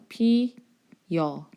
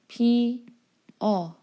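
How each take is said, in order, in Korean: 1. 마지막 모음 앞에 y 반모음이 붙어요. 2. 마지막 모음은 그냥 단모음이에요. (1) "이중모음 됐지?" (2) "단모음 그냥 단모음으로 발음하면 되죠"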